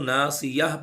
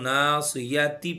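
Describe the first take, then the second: First: The word ends in an 'h' sound. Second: The word ends in a 'ti' sound. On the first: The reading stops at this word. "वक्फ करेंगे तो ना सियाह पढ़ना है" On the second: The reading continues into the next word. "अगर हम मिलाकर पढ़ेंगे तो ना सियाती पढ़ेंगे"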